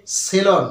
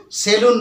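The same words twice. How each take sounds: First: সেলন ending in an open "lon"; correct pronunciation. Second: সেলুন ending in a long "oon"; wrong pronunciation. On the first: Teacher gives students the right form, carefully pronounced সেলন, "se-lon". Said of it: "এর উচ্চারণ হচ্ছে". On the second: Teacher warns students off the usual form, mispronounced সেলুন as "se-loon". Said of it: "এর উচ্চারণটা কিন্তু সেলুন নয়". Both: Shown as a demonstration.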